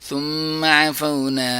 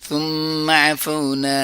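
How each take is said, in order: The two takes are said the same way.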